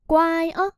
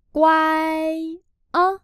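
First: Said in the usual way. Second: Loud, very slow, stretched syllables; slow syllable-by-syllable model. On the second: Shown as a demonstration. Teacher models phrase for learners, slow and loud. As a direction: spell it out slowly and firmly, sound by sound.

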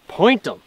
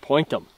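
First: Louder, higher dog command; firm command. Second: Said in the usual way. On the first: Real, not acted. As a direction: order the dog firmly. Dog training command repeated.

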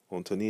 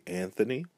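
First: "Anthony" as "on-to-nee", nasal first vowel; Creole pronunciation. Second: Said in the usual way. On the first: Shown as a demonstration. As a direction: say "Anthony" with a French-style nasal start and a t. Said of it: "is one of the ways to say Anthony". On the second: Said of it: "one of the ways to say Anthony".

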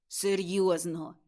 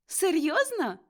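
First: Level, deliberate "Серйозно"; earnest confirmation. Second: High, incredulous "Серйозно"; surprised question. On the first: Tutor assures his pupil, earnest and level. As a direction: confirm it solemnly. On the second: Pupil asks tutor if he means it, surprised. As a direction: ask in delighted disbelief. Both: Acted.

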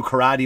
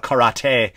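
First: "karate" ending in -ee, kuh-RAH-dee; everyday pronunciation. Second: "karate" ending in -tay, ka-ra-TAY; affected pronunciation. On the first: Shown as a demonstration. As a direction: finish "karate" on DEE, not TAY. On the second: Retold or imitated. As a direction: say "karate" with a crisp t and final ay. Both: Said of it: "someone would call it karate".

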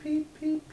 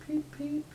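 First: High "peep, peep" chirped like a chick; playful high "peep, peep". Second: "peep, peep" whispered high and tiny; whispered chick "peep, peep". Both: Pretend. Chick sound for toddler.

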